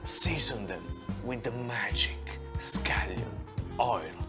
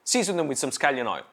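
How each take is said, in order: First: It is said slowly. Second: It is said fast.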